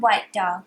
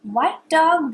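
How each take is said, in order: First: Lower repeat. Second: Higher calling tone; sing-song call. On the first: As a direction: echo it down low. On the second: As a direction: call it up high. Repeat call. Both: Shown as a demonstration.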